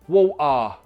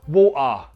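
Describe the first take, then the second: First: A Cockney accent with a strong final vowel. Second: The same.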